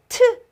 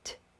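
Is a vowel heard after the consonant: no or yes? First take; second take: yes; no. First: The consonant is followed by an added vowel sound. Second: The consonant is released with no following vowel. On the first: The speaker calls it wrong. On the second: The speaker calls it right.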